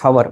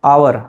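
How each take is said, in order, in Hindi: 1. शब्द की शुरुआत h ध्वनि से होती है। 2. शब्द की शुरुआत स्वर ध्वनि से होती है। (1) "not hour" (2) "the correct pronunciation is hour ... Because H is silent"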